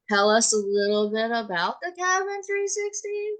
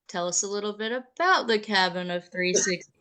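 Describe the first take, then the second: First: The voice rises at the end. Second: The voice stays flat or falls at the end. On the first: It is a question. The speaker calls it right. "Just raise your voice at the end" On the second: It is a statement, not a question. The speaker calls it wrong. "that wasn't in the form of a question"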